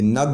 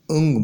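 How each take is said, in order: First: "نگ" starting straight on the n; wrong pronunciation demo. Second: "انگ" opening on a short vowel; correct pronunciation demo. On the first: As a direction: say "نگ" with no vowel before the n. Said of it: "نگ نہیں بولیں گے اس کو". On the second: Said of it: "انگ بولیں گے". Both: Shown as a demonstration.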